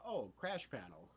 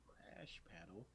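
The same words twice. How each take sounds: First: Said in the usual way. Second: Slow, hushed whisper; barely voiced, drawn-out echo; whispered question. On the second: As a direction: whisper it back in wonder. Retold puzzled reply, whispered.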